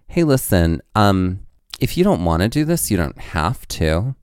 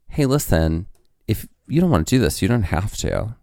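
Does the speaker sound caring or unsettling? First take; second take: unsettling; caring. First: It is said in an odd, unsettling tone. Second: It is said in a gentle, caring tone. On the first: The listener heard them as strange and dreadful. "this is what I heard in that moment" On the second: The words were meant kindly. "In what I imagine was that tone"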